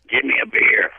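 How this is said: It is said in a showy radio announcer voice.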